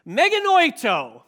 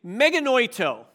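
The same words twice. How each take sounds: First: Meganoito called out high and loud with energy; excited. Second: Said in the usual way. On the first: Shown as a demonstration. Preacher rousing a sleepy congregation, excited. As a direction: say Meganoito like you're alive and thrilled. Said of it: "you're excited about this". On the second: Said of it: "I want you to say that with me".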